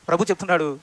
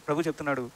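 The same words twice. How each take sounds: First: Said in the usual way. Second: ప్రభు చెప్తున్నాడు said much softer and lower; hushed repeat. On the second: Real, not acted. Preacher telling the congregation the Lord speaks, hushed reverence. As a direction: drop to a reverent hush.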